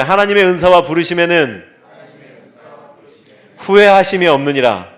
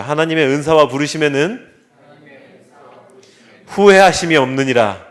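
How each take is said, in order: First: The verse again, fuller and louder; louder recital. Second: Loud, measured verse for all to repeat; leading a recital. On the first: Pastor asks congregation once more, louder. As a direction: push the verse harder the second time. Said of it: "한번 더요". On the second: Pastor leads congregation in reciting, loud. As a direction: read the verse out for the room to echo. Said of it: "저를 따라해 주시죠". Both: Shown as a demonstration.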